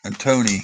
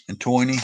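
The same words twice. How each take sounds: First: "and Tony" with an "oh" sound, like TOE-nee; "Tony" said as TOE-nee, first guess; first try at the name. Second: "Tony" said with an "oy" sound, like TOY-nee; "And Tony" retried as TOY-nee; second try at the name. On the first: Reading a viewer's name aloud, unsure first try at the name. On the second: Reading a viewer's name aloud, unsure second try at the name. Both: Shown as a demonstration. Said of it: "I don't know which way to say it".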